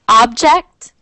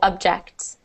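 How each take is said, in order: First: The first vowel sounds like a full o. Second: The first vowel sounds like a short u. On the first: "object is is spelled the way it is pronounced. So the first one" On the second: "is pronounced um, as if it was a U"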